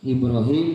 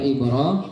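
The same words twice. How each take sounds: First: The last vowel is a long 'ee' sound. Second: The last vowel is a long 'aa' sound. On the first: This is the usual reading of the name. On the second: This is the reading in Hisyam's transmission.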